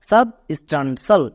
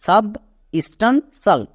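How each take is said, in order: First: সাব স্টান সাল run on as one word; whole-word teaching model; joined-up pronunciation. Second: সাব, স্টান, সাল set apart by pauses; teacher sounding out substantial in pieces; part-by-part pronunciation. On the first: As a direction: blend সাব স্টান সাল without long pauses. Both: Shown as a demonstration. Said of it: "একসঙ্গে উচ্চারণ করো".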